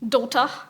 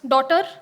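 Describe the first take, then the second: First: It is said with a British English accent. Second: It is said with an Indian English accent. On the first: "Give it to someone in Britain, and the pronunciation would be" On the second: "Give it to an Indian and they would pronounce it as"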